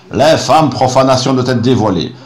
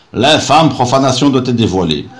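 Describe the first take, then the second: The two takes are said the same way.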